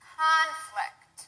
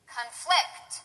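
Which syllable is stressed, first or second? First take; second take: first; second. First: The stress is on the first syllable. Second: The stress is on the second syllable. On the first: It is used as a noun. "The first one will be stressed on the first syllable, that's the noun" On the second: It is used as a verb. "The second one will be stressed on the second syllable, that's the verb"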